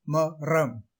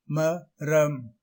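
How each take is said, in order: First: மரம் with r rolled as ற; மரம் with heavy ற; wrong ர. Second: மரம் in two slow beats, light tapped r; ma-ram, மரம் with untrilled r; correct ர. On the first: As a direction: say மரம் with hard trilled r. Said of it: "தவறு". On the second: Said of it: "சரி". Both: Shown as a demonstration.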